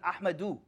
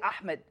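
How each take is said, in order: First: The name is said with three syllables. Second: The name is said with two syllables. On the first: The speaker calls it right. "His name is Ahmadu. Because that's how they say it" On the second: The speaker calls it wrong. "Don't say Ahmed"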